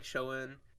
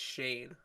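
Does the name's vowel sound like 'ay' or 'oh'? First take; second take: oh; ay. First: The name has an 'oh' vowel sound. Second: The name has an 'ay' vowel sound. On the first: The speaker calls it wrong. "I thought it was like Schoen or something" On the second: The speaker calls it right. "It's Shane"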